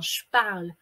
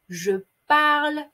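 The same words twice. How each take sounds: First: The e of je is dropped. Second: The e of je is fully pronounced.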